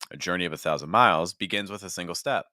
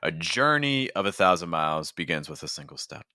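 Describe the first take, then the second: First: The pitch starts low and rises for the second half. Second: The pitch starts high and drops for the second half. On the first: "I'm starting low and then going higher" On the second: "I went lower on that second half"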